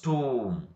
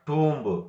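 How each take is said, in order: First: The final B is silent. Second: The final B is sounded. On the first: The speaker calls it right. "We have to pronounce tomb" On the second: The speaker calls it wrong. "Not tomb"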